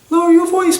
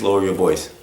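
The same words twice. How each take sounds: First: It sounds soft, hesitant and pleading. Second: It sounds firm but calm and steady. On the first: The request is weak and easy to ignore. The speaker calls it wrong. "We can't say" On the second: The request is serious but not hostile. The speaker calls it right. "We need to be firm. ... But calm"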